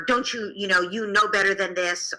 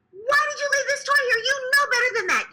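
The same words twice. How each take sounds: First: Said in the usual way. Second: Put-on screaming at the child. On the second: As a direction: shriek at the child over the toy. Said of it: "scream at the child".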